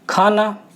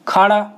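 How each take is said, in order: First: The middle consonant is a dental n. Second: The middle consonant is a retroflex n. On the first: This is the standard Hindi form. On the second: This is the Khari Boli dialect form.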